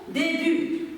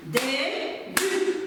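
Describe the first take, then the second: First: Said in the usual way. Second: "Début" in two separate beats, dé - but; split into syllables. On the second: Shown as a demonstration. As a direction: clap out "Début" with a pause between syllables. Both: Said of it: "on frappe ensemble le mot début".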